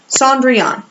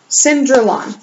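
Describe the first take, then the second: First: The name is said like Cendrillon. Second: The name is said like Cinderlon. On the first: The speaker calls it right. "It is actually Cendrillon" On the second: The speaker calls it wrong. "I think I pronounced that right. I'm not really sure"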